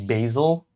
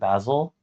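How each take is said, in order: First: The first vowel sounds like the one in 'nasal'. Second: The first vowel is unlike the one in 'nasal'. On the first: This is the way most people in the US say it. "like nasal, as if there was an A there and not an I" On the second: This is another way heard in Canada. "but I've also heard basil"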